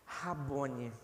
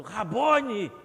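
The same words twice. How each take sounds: First: Rabone said low and soft, falling; hushed Rabone. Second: Rabone called out louder, falling; mock cry out. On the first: Acted. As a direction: breathe Rabone in reverent awe. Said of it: "ouviu a voz do seu Senhor". (Rabone dito baixinho, com reverência) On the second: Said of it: "Eu imagino ela gritando". (Rabone exclamado em voz alta, caindo no tom)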